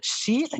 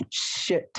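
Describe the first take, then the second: First: "Sheet" with a long rising ee. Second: "shit" short, breathy and clipped. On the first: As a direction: stretch the ee in "Sheet". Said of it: "Ini adalah sheet". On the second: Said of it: "ini adalah shit". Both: Shown as a demonstration. Teacher contrasting sheet and shit for the class.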